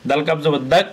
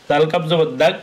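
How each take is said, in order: The two takes are said the same way.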